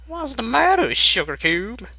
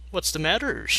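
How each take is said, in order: First: Applejack voice. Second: Said in the usual way. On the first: Acted. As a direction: sing it high with twang. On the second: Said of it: "repeated with accent shift".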